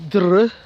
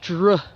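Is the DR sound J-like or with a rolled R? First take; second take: rolled R; J-like. First: The R is rolled after the D. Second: The DR sounds close to a J. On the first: The speaker calls it wrong. "you shouldn't roll your R" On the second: The speaker calls it right. "make it more a J sound"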